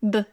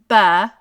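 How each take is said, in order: First: The consonant is clipped with no vowel after it. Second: The consonant is followed by an added uh vowel. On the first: The speaker calls it right. "they're going to say "b,"" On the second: The speaker calls it wrong. "instead of saying "ba,""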